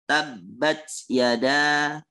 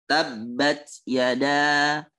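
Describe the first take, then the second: The two takes are said the same way.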